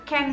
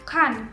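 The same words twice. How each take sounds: First: It sounds almost the same as plain 'can'. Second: It sounds clearly different from plain 'can'. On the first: "cara penyebutannya bisa menjadi serupa dengan can yang biasa" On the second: "Dalam British mereka menyebutnya can karena itu bisa lebih diketahui"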